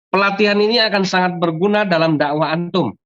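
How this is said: The sentence ends with a full stop and pause. The speaker calls it right. "Titik, harusnya berhenti"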